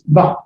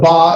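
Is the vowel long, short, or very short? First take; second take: very short; long. First: The vowel is very short and quick. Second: The vowel is held long. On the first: "It's done even quicker" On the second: "Instead of ba"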